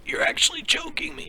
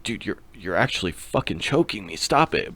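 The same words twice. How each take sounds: First: Choked, airless whisper squeezed out high; imitating being choked, barely any voice; strangled whisper. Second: Said in the usual way. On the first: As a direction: gasp the words out as if a hand is on your throat. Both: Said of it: "But it was more like".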